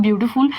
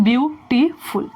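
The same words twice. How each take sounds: First: Said in the usual way. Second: "beautiful" as three distinct beats; broken into syllables. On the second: Shown as a demonstration. Teacher proving to students it has three syllables, syllable-by-syllable. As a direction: say "beautiful" with a gap after each syllable. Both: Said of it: "तीन syllable में आ रहा है".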